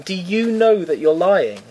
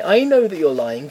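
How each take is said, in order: First: First "you" stressed, slow and higher. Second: "I" stressed in a slow, higher line. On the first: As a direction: punch the "you" in "Do you know". Turns the same words on scammer. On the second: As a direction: lean on "I", as against "you". Contrasts own knowledge with scammer's. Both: Retold or imitated.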